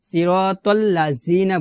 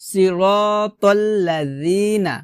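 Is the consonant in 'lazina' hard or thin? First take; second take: hard; thin. First: The consonant is a hard, buzzing z sound. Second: The consonant is a thin, soft dental sound. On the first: The speaker calls it wrong. "জিহ্বার আগা নিচে দাঁতের সঙ্গে লাগিয়ে উচ্চারণ করি, সিরাতাল্লাযীনা বলি, তো এটা কিন্তু ভুল" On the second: The speaker calls it right. "জিহ্বার আগা উপরে দুই দাঁতের আগার সঙ্গে লাগিয়ে ... পাতলা করে"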